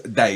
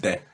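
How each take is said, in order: First: The syllable is said like 'day'. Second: The syllable is said like 'de'. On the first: The speaker calls it right. "It's day" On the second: The speaker calls it wrong. "not de"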